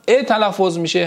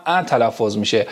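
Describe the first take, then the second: First: "ا" pronounced as a closed e; e sound. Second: "ا" pronounced as an open æ; open a sound. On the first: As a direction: say "ا" as e, like in "ekmek". («ا» با صدای اِ) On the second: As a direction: say "ا" as a short open a, like in "cat". («ا» با صدای اَ) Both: Shown as a demonstration.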